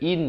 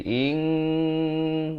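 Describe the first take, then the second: First: The syllable ends in a clear 'n'. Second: The syllable ends in a held 'ng' hum. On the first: "disamarkan daripada in" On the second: "jadi ing, dua harakat"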